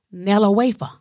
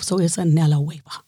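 First: "Nella wafer" with the va dropped, NEL-la; Southern Nella wafer. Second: "Nella wafer" said quick, first syllable gone; fast "Nella", no va; Southern Nella wafer. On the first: Telling listeners her Southern way, Nella wafer with va dropped. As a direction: clip vanilla to "Nella". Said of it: "I know you're supposed to say vanilla wafer". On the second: Insisting to listeners she's from the South, Nella wafer said fast. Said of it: "supposed to say vanilla wafer". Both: Shown as a demonstration.

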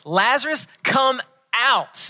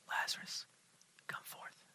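First: Raised, higher commanding call; loud cry. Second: Very soft, voiceless whisper. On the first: Retold or imitated. Preacher voices Jesus calling a dead man, loud cry. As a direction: call it out loudly, pitched up. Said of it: "cries out with a loud voice". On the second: Shown as a demonstration. Preacher imagines Jesus calling a dead man, whispered. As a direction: whisper it, barely audible. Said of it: "Jesus could have whispered".

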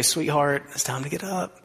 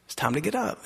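First: Put-on soft and tender, like waking a sleeping child; gentle wake-up voice. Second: Soft, tender call with a lift at the end; gentle wake-up voice. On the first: Pastor showing how a parent wakes a daughter, gentle and soft. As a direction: coax a little girl awake, barely above a murmur. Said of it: "It's that gentle". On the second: Jesus waking the little girl, tender and soft. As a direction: wake her softly, like a loving father. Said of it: "that's how he talked to her". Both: Shown as a demonstration.

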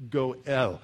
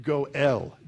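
First: Goel said once more, quicker, as a plain echo; quick echo of a Hebrew word; Hebrew word repeated. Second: Goel said slowly, each sound drawn out; teaching a Hebrew word slowly. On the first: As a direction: repeat goel lightly to reinforce it. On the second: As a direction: spell out goel gently for the listeners. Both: Shown as a demonstration. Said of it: "In Hebrew, um, it's the word goel".

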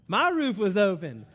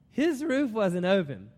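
First: "My" punched loud; stress on My. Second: "his" stressed to set up a contrast. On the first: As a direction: hit the word "My" hard as the punchline. Punchline contrast with his roof. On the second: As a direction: lean on "his", drawing the line out. Contrasts his roof with his own. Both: Acted.

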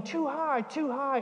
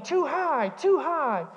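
First: High, light imitation of a toddler's yell; mock child yell. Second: High mock yell of a little girl; playful imitation of a toddler's yell; child yelling imitated. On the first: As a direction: pipe it up like a little kid. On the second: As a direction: yell it like a small kid on a swing. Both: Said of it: "she would start yelling".

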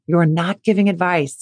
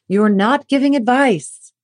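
First: Said in the usual way. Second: Slow down and punch "giving"; stress on giving. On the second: Shown as a demonstration. Coach to parents, stressing "giving" firmly and slowly.

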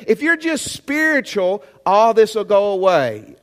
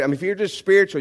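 First: Mock objection. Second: Said in the usual way. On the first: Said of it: "some of you are saying". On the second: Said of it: "restating the objection plainly".

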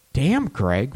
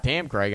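First: Said in the usual way. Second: Muttered quote. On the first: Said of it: "[name], why'd you say, "Damn, Greg"?". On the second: Retold or imitated.

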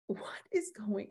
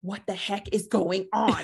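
First: Retold whisper of disbelief; stunned whisper. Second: Retold disbelief, landing on "on"; stunned disbelief. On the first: Couple's stunned reaction retold. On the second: Same reaction, voiced aloud.

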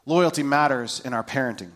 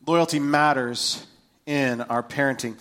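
First: Said in the usual way. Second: Slow, deliberate repeat with pauses; measured, drawn-out delivery for emphasis. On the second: Real, not acted. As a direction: spell the point out slowly, phrase by phrase. Point repeated slowly for emphasis.

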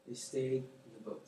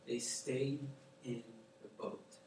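First: Said in the usual way. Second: They stayed, in, the boat, each word apart, boat whispered softer; slow dramatic pause. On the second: Shown as a demonstration.

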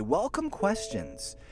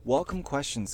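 First: "Welcome questions" drawn out much higher and slower; big slow high announcement of "Welcome questions"; announcing the point. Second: Said in the usual way. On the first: Shown as a demonstration. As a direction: sing out "Welcome questions" like a headline. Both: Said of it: "moves me to point number three".

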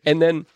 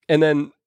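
Both takes have the same delivery.

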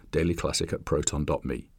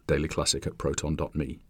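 Both takes have the same delivery.

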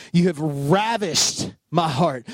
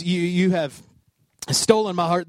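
First: Slow, tender reading of ravished. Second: Said in the usual way. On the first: Shown as a demonstration. Pastor reading a second translation aloud, slow and tender. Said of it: "This one says". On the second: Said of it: "one says".

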